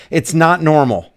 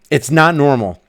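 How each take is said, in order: Both takes have the same delivery.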